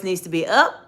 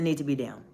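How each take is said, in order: First: Pitch going up. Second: Pitch going down. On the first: Coach asking viewers about tone, pitch going up. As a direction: voice lifting sharply on "up". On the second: Coach offering the other choice, pitch going down. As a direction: lower voice settling on "down". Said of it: "does it need to be down". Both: Shown as a demonstration.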